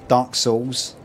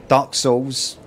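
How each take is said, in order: No difference in how they are said.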